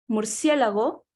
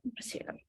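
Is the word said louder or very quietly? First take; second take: louder; very quietly. First: The word is said at a moderate, louder volume. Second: The word is said so softly it is barely audible. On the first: "Comenzamos a hacer con la misma palabra más bajos y bajos" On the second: "hasta que lleguemos a casi no escucharnos"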